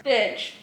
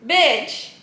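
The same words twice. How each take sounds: First: Said in the usual way. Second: Laughing it out as she repeats it. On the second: Real, not acted. Reacting to her book chapter, laughing the word out. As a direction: say it again, chuckling through the word Bitch.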